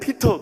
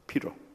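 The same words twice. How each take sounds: First: The middle consonant is a clear t. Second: The middle consonant sounds like a flapped r. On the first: "우리는 피터 그러잖아요" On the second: "T자를 R로 발음하는 거예요"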